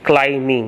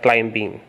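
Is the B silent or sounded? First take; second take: silent; sounded. First: The B is left silent. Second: The B is pronounced aloud. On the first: The speaker calls it right. "should be pronounced as" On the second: The speaker calls it wrong.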